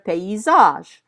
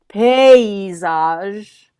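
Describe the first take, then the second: First: The first syllable carries no extra stress. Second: The first syllable carries extra stress. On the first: The speaker calls it wrong. "instead of" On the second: The speaker calls it right. "you're going to stress that first syllable of the word"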